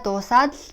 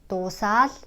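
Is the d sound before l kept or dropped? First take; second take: kept; dropped. First: The d sound is clearly pronounced before l. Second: The d sound is dropped and merges into l.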